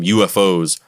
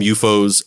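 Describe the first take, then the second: First: It is said the American way. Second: It is said the British way. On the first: "in the United States, we call them U F Os" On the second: "the English pronounce it U F O"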